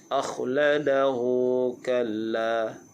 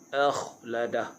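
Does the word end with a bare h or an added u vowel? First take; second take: u vowel; bare h. First: The h carries a short u into the next word. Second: The word ends on a bare h with no vowel. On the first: The reading continues into the next verse. "bila sambung dia jadi maksilah qasirah" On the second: The reading stops at this word. "Akhladah bila waqaf, pastikan huruf ha itu dibaca dengan sukun"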